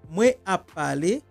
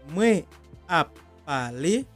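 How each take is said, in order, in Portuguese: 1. Ela é falada em ritmo normal, um pouco mais rápido. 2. Ela é falada devagar e com calma.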